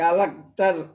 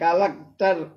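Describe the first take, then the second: First: It is said as three syllables, ka-lek-tar. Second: It is said as three syllables, ka-lek-tar.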